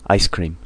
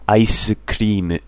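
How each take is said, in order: First: Said in the usual way. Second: "Ice cream" said the Japanese way, with an extra vowel after ice; "Ice cream" as a katakana word, syllable by syllable; "Ice cream" like aisukuriimu; Japanese loanword style. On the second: Shown as a demonstration. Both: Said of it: "Japanese English".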